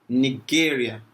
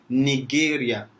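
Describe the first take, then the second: No difference in how they are said.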